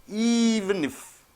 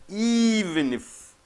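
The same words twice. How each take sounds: Both takes have the same delivery.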